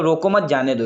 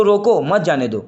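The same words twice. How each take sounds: First: "रोको मत" together, then "जाने दो"; pause after मत. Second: "रोको" alone, break, then "मत जाने दो"; pause after रोको. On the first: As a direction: keep "मत" with "रोको", break before "जाने दो". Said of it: "रोको मत के बाद कॉमा लगा". ("मत" के बाद विराम) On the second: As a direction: stop after "रोको", keep "मत जाने दो" together. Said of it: "रोको कॉमा मत जाने दो". ("रोको" के बाद विराम) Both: Shown as a demonstration.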